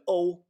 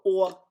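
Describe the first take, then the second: First: Slow, drawn-out "o" gliding like English "oh". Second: Slow, drawn-out "o", close to "aw"; Swedish-style o. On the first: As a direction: say "o" long, closing toward oo. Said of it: "it's pronounced O". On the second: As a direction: hold "o" as one long Swedish vowel. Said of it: "just the letter o in". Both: Shown as a demonstration.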